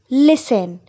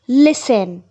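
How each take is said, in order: First: The t sound is silent in the middle. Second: The t sound is silent in the middle.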